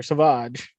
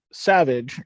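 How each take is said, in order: First: "Savage" said suh-VAHZH, stress on the second syllable; "Savage" French-style, suh-VAHZH; corrected pronunciation. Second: "Savage" said SAV-ij, stress on the first syllable; "Savage" as the everyday English word, SAV-ij; first pronunciation. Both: Shown as a demonstration. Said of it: "or Savage".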